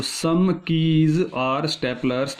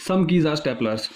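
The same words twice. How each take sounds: First: "some keys are staplers" drawn out word by word; slow deliberate repeat. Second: Said in the usual way. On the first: Shown as a demonstration. Teacher repeats the statement while drawing the diagram, slow and deliberate.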